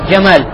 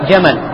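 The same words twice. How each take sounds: First: The stress is on the second syllable. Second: The stress is on the first syllable. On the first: It means beauty. The speaker calls it wrong. "не говори джамаль" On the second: It means camel. The speaker calls it right. "ставь ударение на первый слог"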